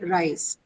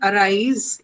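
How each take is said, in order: First: The first vowel is nearly silent. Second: The first vowel is full and clear. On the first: The speaker calls it right. "in the actual pronunciation style, it's only rise" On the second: The speaker calls it wrong. "while I'm saying arise in the Indian English context"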